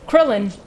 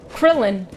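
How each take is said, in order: The two takes are said the same way.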